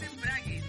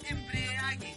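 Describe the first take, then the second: First: It is said as embrague, with no extra vowel. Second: It is said as embriague, with an extra 'i'. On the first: The speaker calls it right. "Es embrague" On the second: The speaker calls it wrong. "no es embriague"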